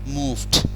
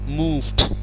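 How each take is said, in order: The two takes are said the same way.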